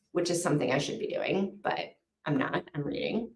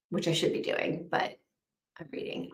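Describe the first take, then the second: First: Said in the usual way. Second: Whispered, voiceless confession; guilty whisper. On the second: Real, not acted. Admitting to the chat she's reading instead of working, in a whisper.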